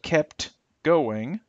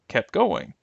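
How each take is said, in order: First: The final T of kept is clearly pronounced. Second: The final T of kept is dropped. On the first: "Instead of kept going" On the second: "the T will be will disappear"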